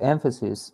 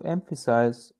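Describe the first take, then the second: First: "emphasis" with a short "sis" ending; corrected emphasis. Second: "emphasis" ending like "size"; mispronounced emphasis. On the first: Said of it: "repeat this word again". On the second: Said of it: "Em-, emphasis". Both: Real, not acted.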